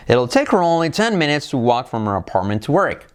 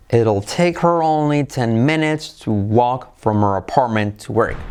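First: The sentence is spoken at a fast speed. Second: The sentence is spoken at a slow speed. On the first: "Más deprisa" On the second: "Más despacio"

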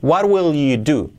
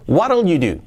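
First: The word 'will' is said in full. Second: The word 'will' is shortened onto 'what'. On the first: "Pues yo lo haría sin contraer" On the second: "Vamos a hacerlo contraído, así"

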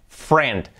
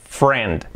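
Both takes have the same delivery.

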